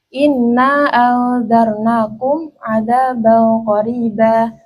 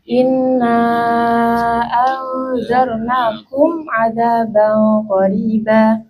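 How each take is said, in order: First: Inna is short and the mim is closed. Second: Inna is long and the mim is closed. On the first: "qasar sukun" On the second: "mat sukun panjang"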